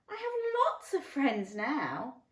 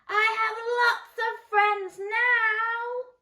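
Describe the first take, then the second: First: It is said at a normal, quieter volume. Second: It is said very loudly.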